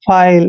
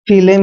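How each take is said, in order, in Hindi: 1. यह एक अक्षर है, 'eye' स्वर के साथ। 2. यह दो अक्षर हैं, 'ee' स्वर के साथ। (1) "आई एल ई का उच्चारण आइल करेंगे" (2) "ऐसे नहीं पढ़ना है"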